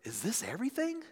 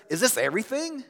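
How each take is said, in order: First: Soft, high, rising delight; hushed wonder, lifting at the end. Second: Higher-pitched, let-down question; dissatisfied. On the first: Child on birthday after opening presents, delighted. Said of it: "the other expresses delight". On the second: Child on birthday after opening presents, dissatisfied. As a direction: ask it like a disappointed child. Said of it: "One way expresses dissatisfaction". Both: Acted.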